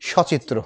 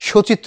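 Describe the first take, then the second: First: The first vowel is an open aw sound. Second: The first vowel is a closed o sound. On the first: The speaker calls it right. "সচিত্র হলো" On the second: The speaker calls it wrong. "সচিত্র হলো না"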